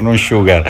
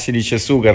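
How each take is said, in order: First: The word is pronounced the English way. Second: The word is pronounced the Italian way. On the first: The speaker calls it wrong. "non Sugar come dicono tanti erroneamente" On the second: The speaker calls it right. "si dice Sugar, ... è un cognome comunque italianissimo"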